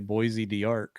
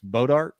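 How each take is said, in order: First: The name begins with a 'boys' sound. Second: The name begins with a short 'bo' sound. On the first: The speaker calls it wrong. "I want to say Boise d'Arc or some craziness" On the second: The speaker calls it right. "I believe it's Bodart"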